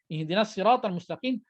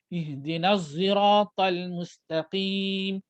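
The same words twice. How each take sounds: First: Sirat begins with a heavy emphatic s sound. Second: Sirat begins with a z-like rounded sound. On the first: "Hafs an Asim baca dengan sad" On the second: "Ada baca dengan za yang muncung"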